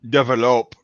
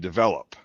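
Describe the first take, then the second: First: The stress falls on an unusual, shifted syllable. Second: The stress falls on the usual syllable. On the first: The speaker calls it wrong. "well, develop is actually" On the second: The speaker calls it right. "is actually develop"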